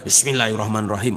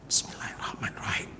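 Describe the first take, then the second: First: It is recited loudly, carrying far. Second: It is recited quietly, barely audible.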